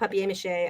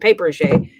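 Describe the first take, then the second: First: The first part sounds like 'pap-yay', following the spelling. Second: The first part sounds like the word 'paper'. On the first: The speaker calls it right. "I like to call it papier-mâché" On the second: The speaker calls it wrong. "a more correct pronunciation than papier-mâché"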